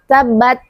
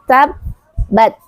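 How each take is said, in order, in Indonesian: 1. Huruf b yang ganda hanya ditekan dengan lemah. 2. Huruf b yang ganda ditekan dan ditahan dengan kuat. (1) "kurang penekanan di tasydidnya" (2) "sempurnakan tasydidnya, yaitu dengan cara menekan"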